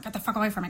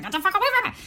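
First: Quiet irritated muttering, acted out. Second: High-pitched, held-back mock yell; half-voiced yelling, acted out; mock scolding. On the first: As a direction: mutter it crossly under your breath. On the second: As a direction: scold them in a rising pitch. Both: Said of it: "muttering or scolding or yelling".

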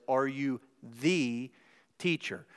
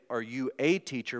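First: "the" slow and drawn out, said as "thee"; stress on THE. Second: Said in the usual way. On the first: Shown as a demonstration. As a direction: lean hard on "the" in "Are you the teacher?". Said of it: "he actually says". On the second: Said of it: "but he actually says".

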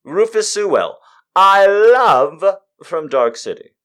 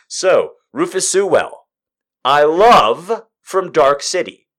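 First: Higher, louder, slow, drawn-out gush; emphatic repeat. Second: Said in the usual way. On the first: Real, not acted. Fan repeating her crush on an actor, gushing slowly. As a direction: lean into every word with delight.

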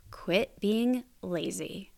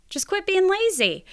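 First: Slow, measured delivery of blunt advice; slow deliberate advice. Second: Much higher, playful scolding; pitched way up, punchy and exclaiming; emphatic high repeat. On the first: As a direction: spell it out slowly, without raising the voice. States blunt advice, then repeats louder. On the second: Repeats blunt advice in mock exasperation. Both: Shown as a demonstration.

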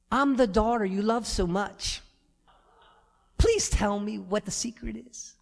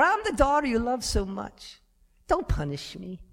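First: Sweet pleading daughter. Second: Pleading daughter. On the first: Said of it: "Imagine Madison coming in the room". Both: Retold or imitated.

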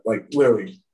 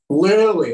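First: Said in the usual way. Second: Literally said higher and louder; emphatic repeat. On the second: Real, not acted.

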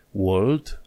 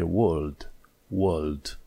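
First: "world" with the R pronounced; slow "world" with its R, rising; wrong, R sounded. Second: "world" without the R, long "uh" vowel; British silent R. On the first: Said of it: "World nu e world". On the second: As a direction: drop the R in "world", falling. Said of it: "atunci R-ul nu se pronunță". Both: Shown as a demonstration.

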